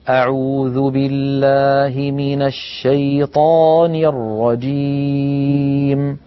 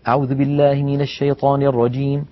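First: It is recited slowly and calmly. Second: It is recited quickly.

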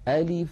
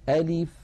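First: The i vowel after the l is short and even. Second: The i vowel after the l is short and even.

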